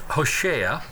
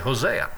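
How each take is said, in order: First: The name is said with its Hebrew pronunciation. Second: The name is said with its usual English pronunciation. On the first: "In Hebrew, it's pronounced Hosea" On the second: "Or I can say Hosea"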